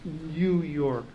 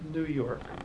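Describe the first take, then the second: First: New is said with a y glide, like nyoo. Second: New is said without a y glide, like noo. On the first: This is the proper English pronunciation. The speaker calls it right. "when properly pronounced by those who speak English, is pronounced" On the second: This is how the city's residents say it. The speaker calls it wrong.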